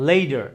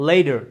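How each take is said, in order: No difference in how they are said.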